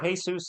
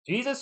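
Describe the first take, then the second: First: The name begins with a breathy H sound. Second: The name begins with an English J sound. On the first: An everyday given name, as for a neighbor. "like my neighbor" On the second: The biblical figure's name. "like like Jesus"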